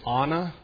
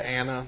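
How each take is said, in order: First: The first vowel is open, like in 'father'. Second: The first vowel is not the 'father' vowel. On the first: This is the original Hebrew way. "Probably the Hebrew right way to say it is Anna. They pronounce their A's like father" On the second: This is the local Texas way. "because I'm an old Texas boy, and that's how we say the word"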